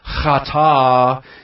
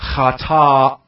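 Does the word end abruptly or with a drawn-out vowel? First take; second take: drawn-out; abrupt. First: The final vowel is drawn out and trails off. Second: The final vowel is cut off by a throat closure. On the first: The speaker calls it wrong. "not chata and just dragging the A out there" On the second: The speaker calls it right. "It's chata in closing the throat"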